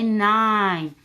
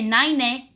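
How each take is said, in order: First: The vowel is the long I sound. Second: The vowel is short, not the long I sound. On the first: The speaker calls it right. "We say nine. The magic E is quiet, makes the E say I" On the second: The speaker calls it wrong. "we don't say nine. No, no, no"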